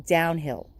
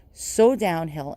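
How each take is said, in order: First: Said in the usual way. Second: So drawn out slowly, downhill falling; sorrowful emphasis on so, sinking at the end; stress on so. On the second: Real, not acted. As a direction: lean slowly into so.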